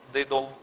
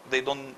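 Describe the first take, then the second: No difference in how they are said.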